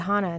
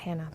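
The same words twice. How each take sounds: First: The first vowel is an open 'ah' sound. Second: The first vowel is not an 'ah' sound. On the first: The speaker calls it right. "it's actually Hannah ... rhymes with piranha" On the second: The speaker calls it wrong. "not Hannah"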